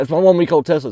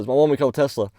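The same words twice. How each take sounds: First: Put-on louder and higher, pressing hard on one-week-old; mock-indignant repeat of "one-week-old Tesla"; insistent complaining owner. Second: Said in the usual way. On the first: Tesla owner harping on his new car, loud mock indignation. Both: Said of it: "he kept just dragging that".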